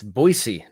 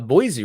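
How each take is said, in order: First: The middle consonant is a hissing s sound. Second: The middle consonant is a buzzing z sound. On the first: The speaker calls it right. "It's an S E E, not a Z E" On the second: The speaker calls it wrong. "apparently we say uh, Boise wrong"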